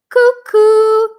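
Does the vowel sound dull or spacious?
dull. It sounds duller and less open with a lowered palate. "with my soft palate low"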